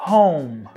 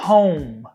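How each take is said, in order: The two takes are said the same way.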